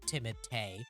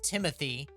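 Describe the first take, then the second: First: The name is said with its original pronunciation. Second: The name is said like the English name Timothy. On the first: This is the name as the family intends it. The speaker calls it right. "So I will pronounce it correctly for you" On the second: This is how most people say it. The speaker calls it wrong. "everyone thinks it's Timothy because no one wants to actually pronounce his name"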